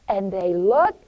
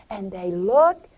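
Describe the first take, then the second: No difference in how they are said.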